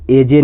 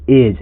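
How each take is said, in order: First: एजे in two syllables, ay-jay; final E sounded. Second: एज as one syllable, ending on the j sound; silent final E. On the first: Teacher showing students the wrong reading एजे, final E sounded. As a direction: voice the silent E at the end of एजे. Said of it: "इसको एजे नहीं पढ़ते हैं". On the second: Teacher correcting the reading to एज, final E silent. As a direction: say एज with nothing after the j. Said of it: "इसको पढ़ते एज". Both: Shown as a demonstration.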